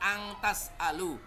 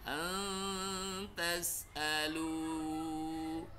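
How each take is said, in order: First: The nasal is pronounced as a full, clear ng. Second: The nasal is hidden, only lightly sounded. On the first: The speaker calls it wrong. "bukan eng ya. Kalau eng kan angtas alu" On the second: The speaker calls it right. "Maka kita sembunyikan seperti bunyi eng"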